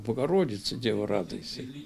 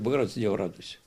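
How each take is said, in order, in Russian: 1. Её говорят искренне, как прямое обращение. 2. Её читают ровно, никому не адресуя. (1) "Я обращаюсь вот направление" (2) "Не просто говорю"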